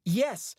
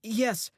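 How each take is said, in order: First: Higher, louder yes; boy saying yes louder. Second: Higher, louder yes; boy repeating yes louder. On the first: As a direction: push it out. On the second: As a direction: push the word out. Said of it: "I repeat, louder". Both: A narrator's reading.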